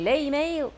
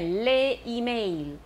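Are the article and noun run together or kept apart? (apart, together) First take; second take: together; apart. First: Said quickly, the article merged into the noun. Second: Said slowly, the article kept apart and stressed. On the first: "如果你念得很快…会连在一起的那个第二个a 可能就是有点缩小" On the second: "如果你念得很慢，我现在要强调那个定冠词的复数"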